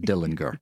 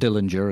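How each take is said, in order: First: The name has a German-style pronunciation. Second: The name has the common English pronunciation. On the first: This is how the man himself said his name. The speaker calls it right. "His father was German. He pronounced it Dillinger" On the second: This is how most people said the name. The speaker calls it wrong. "Not Dillinger, as everybody called him"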